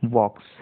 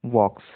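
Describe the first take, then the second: First: The silent consonant is left out entirely. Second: The silent consonant is left out entirely.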